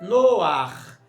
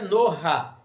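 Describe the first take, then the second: First: The word ends with a guttural after the vowel. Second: The guttural sound comes before the final vowel. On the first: The speaker calls it right. "é noar. A presença do het" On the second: The speaker calls it wrong. "Não é noha"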